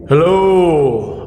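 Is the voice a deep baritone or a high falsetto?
deep baritone. It is said in a deep baritone voice. "with a deep baritone as I could manage"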